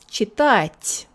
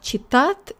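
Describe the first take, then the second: First: The final t is soft, with hiss. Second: The final t is hard, without hiss. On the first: The speaker calls it right. "there's a lot of hiss in it" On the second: The speaker calls it wrong. "It's not"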